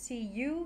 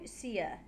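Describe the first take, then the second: First: The word you is said with a full vowel. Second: The word you is said short and reduced.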